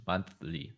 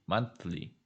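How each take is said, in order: Both takes have the same delivery.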